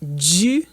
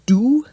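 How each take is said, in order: First: The D is affricated, with a buzz before the vowel. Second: The D is a plain stop before the vowel. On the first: "there's an affrication" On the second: "instead of saying du"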